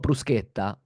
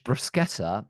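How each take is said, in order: First: It is said with an Italian pronunciation. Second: It is said with a posh British English accent. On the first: The speaker calls it right. "Because it's called bruschetta" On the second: The speaker calls it wrong. "very R P posh bruschetta"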